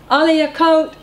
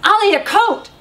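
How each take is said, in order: First: The voice sounds calm and non-judgmental. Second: The voice sounds harsh and judgmental. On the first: It is a simple reminder without blame. The speaker calls it right. "keeping your voice non-judgmental" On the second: It carries blame behind the request. The speaker calls it wrong. "It's very different"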